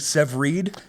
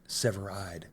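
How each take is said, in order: First: The name ends with a short 'id' sound. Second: The name ends with a long 'ide' sound. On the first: The speaker calls it wrong. "I've been saying Severid" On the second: The speaker calls it right.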